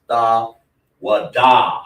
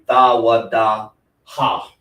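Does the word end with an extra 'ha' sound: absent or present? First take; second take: absent; present. First: The word ends cleanly with no extra ha sound. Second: The word ends with an extra breathy ha sound. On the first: The speaker calls it right. "it says da wa da" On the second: The speaker calls it wrong. "if it wasn't, it would be da wa da ha"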